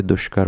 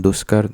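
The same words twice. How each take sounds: First: दुष्कर with a clear "sh", as "dushkar"; correct sibilant. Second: दुष्कर said with "s", as "duskar"; wrong sibilant. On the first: Teacher correcting students, दुष्कर said as "dushkar". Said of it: "पेट पर हुआ श वाला". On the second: Teacher showing the error, दुष्कर said as "duskar". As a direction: swap the "sh" in दुष्कर for a plain "s". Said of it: "नहीं होता". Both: Shown as a demonstration.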